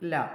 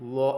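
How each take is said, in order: First: The l is said light and thin. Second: The l is said heavy and full-mouthed. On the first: The speaker calls it right. "ല നേർപ്പിച്ച് പറഞ്ഞു" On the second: The speaker calls it wrong. "ലോ എന്ന് പറയാതെ"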